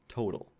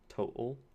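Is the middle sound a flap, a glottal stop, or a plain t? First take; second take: flap; glottal stop. First: The middle t is a quick flap. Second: The middle t is a glottal stop. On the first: "in my dialect of English, that is a flap" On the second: "in which case you'd have the glottal stop"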